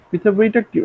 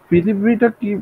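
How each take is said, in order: Both takes have the same delivery.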